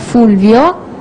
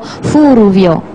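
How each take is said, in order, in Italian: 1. Il nome viene pronunciato senza vocale in più. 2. Una vocale in più viene inserita dentro il nome. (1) "italiano nostro" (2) "i giapponesi direbbero"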